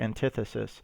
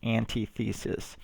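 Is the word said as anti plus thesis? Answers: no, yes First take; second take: no; yes. First: It is not said as anti plus thesis. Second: It is said as anti plus thesis. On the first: The speaker calls it right. "it's actually pronounced, as I said before, antithesis" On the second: The speaker calls it wrong. "it looks like antithesis"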